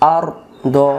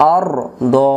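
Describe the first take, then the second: No difference in how they are said.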